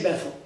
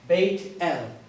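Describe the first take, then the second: First: It is said as one word, Beth-el. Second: It is said as two parts, Bayt El.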